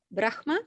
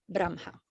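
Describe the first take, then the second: First: "Brahma" said BRAKH-ma, rising; Brahma with h first. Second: "Brahma" said BRAM-ha, falling; Brahma with m first. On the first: Teacher quoting some people, "Brahma" as BRAKH-ma. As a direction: say "Brahma" with a rough h before ma. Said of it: "Some people say". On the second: Teacher quoting other people, "Brahma" as BRAM-ha. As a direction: say "Brahma" with m before the breathed ha. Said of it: "and some people say". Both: Shown as a demonstration.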